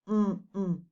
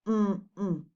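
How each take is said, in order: Both takes have the same delivery.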